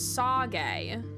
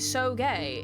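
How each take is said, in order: First: The first syllable rhymes with 'saw'. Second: The first syllable rhymes with 'so'. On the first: The speaker calls it right. "I'm pronouncing it as saw. Like a saw" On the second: The speaker calls it wrong.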